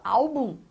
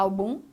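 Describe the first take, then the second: First: Álbum stressed on the first syllable, AL-bum; weight on the opening al of álbum, bum left light; correct first-syllable stress. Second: Álbum wrongly stressed on the last syllable, al-BUM; misplaced stress, álbum as al-BUM; wrong final stress. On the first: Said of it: "você fala álbum". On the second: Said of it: "Você não fala álbum". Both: Shown as a demonstration.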